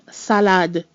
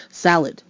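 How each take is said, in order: First: Salade with equal open a's and a clear d; French salade. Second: Salad with a loose ending; lazy English salad. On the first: Teacher showing the French Salade after the English. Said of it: "we don't do that in French". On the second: Teacher contrasting English Salad with French. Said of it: "we kinda get lazy ... at the end of the word". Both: Shown as a demonstration.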